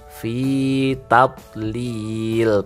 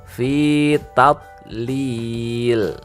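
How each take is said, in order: Both takes have the same delivery.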